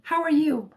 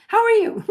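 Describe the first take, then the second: First: Said in the usual way. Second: "How are you?" asked again much higher, teasing herself; playful higher repeat. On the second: Shown as a demonstration. Livestream host greeting a viewer twice, playfully higher. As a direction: pop the greeting up high and playful. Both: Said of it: "I know, I already said that".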